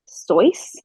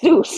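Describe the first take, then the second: First: The vowel sounds like 'oy' in 'boy'. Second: The vowel sounds like 'oo' in 'moose'. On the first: This is the original German pronunciation. "if that's how it's pronounced, like in German" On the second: This is the usual American pronunciation. "in America, the only place that matters, it's pronounced Seuss"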